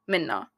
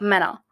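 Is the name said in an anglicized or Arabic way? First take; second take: Arabic; anglicized. First: The name is said in its Arabic way. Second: The name is said in an anglicized way. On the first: It is the real pronunciation of the name. "how you actually pronounce it is Minna" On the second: It is made easier for non-Arabic speakers. "make it easier for other people or like whitewash the name a little bit"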